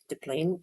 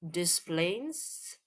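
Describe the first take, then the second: First: The first syllable has no S sound. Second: The first syllable ends with an S sound. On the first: "you didn't say the S?" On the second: "They do say the S"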